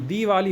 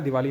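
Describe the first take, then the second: First: The first vowel is a long 'ee'. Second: The first vowel is a short 'i'. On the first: The speaker calls it right. "दीवाली होता है" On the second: The speaker calls it wrong. "दिवाली नहीं होता है"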